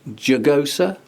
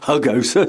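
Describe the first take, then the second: First: It begins with an English J sound. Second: It begins with an H sound.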